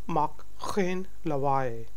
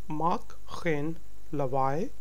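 The two takes are said the same way.

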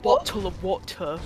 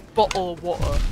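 First: The T sounds are clearly pronounced. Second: The T sounds are dropped as glottal stops. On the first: The speaker calls it wrong. "You pronounce the T, and that makes you a fucking bitch ass posh Tory" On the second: The speaker calls it right. "It's bottle of water"

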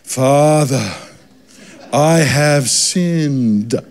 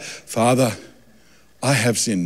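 First: The line is said with exaggerated, pleading emotion. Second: The line is said in a plain, flat way.

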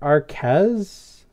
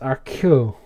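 First: The name is read as spelled, like 'Arquette'. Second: The name follows the French pronunciation guide. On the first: The speaker calls it wrong. "It looks like Arquez, like Arquette" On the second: The speaker calls it right. "but I guess it's Arcueil"

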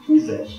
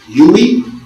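First: The name is said with a German pronunciation. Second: The name is said with an American-style pronunciation. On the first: "Uwe is how you want to pronounce it if you honor the German language" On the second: "I don't know how an American would pronounce U-W-E"

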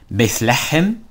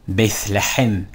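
First: It is said as two words, 'bith lechem'. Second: It is said as two words, 'bith lechem'.

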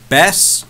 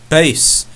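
First: The word is said with the vowel of 'cat'. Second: The word is said with the vowel of 'face'. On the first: It means a kind of fish. "the fish" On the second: It means low musical sound. "opposite of treble"

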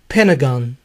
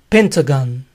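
First: The T sound is dropped. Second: The T sound is clearly pronounced.

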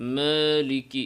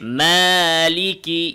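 First: The long a is said with the mouth barely open. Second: The long a is said with the mouth wide open. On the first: The speaker calls it wrong. "অনেকে এভাবে মুখ না খুলে মালিকি মালিকি এভাবে বলে থাকে" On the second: The speaker calls it right. "মুখ খুলতে হবে"

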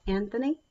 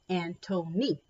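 First: The middle consonant is a 'th' sound. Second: The middle consonant is a plain 't' sound. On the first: The speaker calls it wrong. "not Anthony" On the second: The speaker calls it right.

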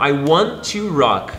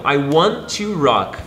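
First: 'Want to' is said as two full words. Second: 'Want to' is said as two full words.

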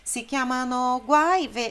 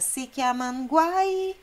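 First: The syllable 'no' is fully pronounced. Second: The syllable 'no' is dropped, words run together. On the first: This is the full form the singer does not use. "ele não diz Sikiamanoguai" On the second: This is how the singer actually sings it. "Ele canta Sikiamanguai"

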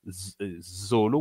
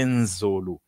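First: The word starts directly with a 'z' sound. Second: The word starts with a nasal 'n' before 'z'. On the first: The speaker calls it wrong. "We don't say Zolo" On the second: The speaker calls it right. "we say Nzolo"

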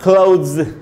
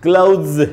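First: The word ends with a z sound. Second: The same.

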